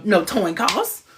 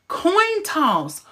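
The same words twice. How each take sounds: First: "coin toss" swapped to "toin coss"; slip of the tongue. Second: "Coin toss" with K first, T second, high and falling; pointedly repair it to "Coin toss"; corrected pronunciation. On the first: Host slipping on "coin toss", saying "toin coss" slowly. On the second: Host correcting own slip to "Coin toss", high and careful. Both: Real, not acted. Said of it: "Am I having a stroke?".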